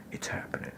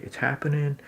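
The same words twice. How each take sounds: First: Whispered It's happening, no voice at all. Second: "It's happening." pitched high and louder; excited. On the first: Telling himself the scene is working, in a whisper. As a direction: breathe "It's happening." as a secret. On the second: Hyping himself up about the breakthrough, excited. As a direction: announce "It's happening." with eager lift. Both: Shown as a demonstration.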